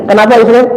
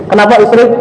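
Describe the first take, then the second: The two takes are said the same way.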